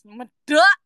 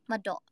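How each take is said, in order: First: The word is said in a thick Javanese accent. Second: The word is said in a plain neutral accent. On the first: "But if you use medok, it becomes medok" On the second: "If you say it normally"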